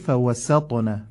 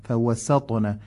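First: The s sound is light and clearly pronounced. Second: The same.

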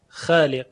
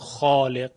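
First: The long a is light and thin. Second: The long a is full and heavy. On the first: This is how it is said in everyday Arabic speech. "در کشورهای عربی الف پس از حرف خا رو اینها ترقیق میکنن" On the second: This is how Quran reciters say it. "نمیگوین خالق، فقط قراء هستن که اینگونه میگوین"

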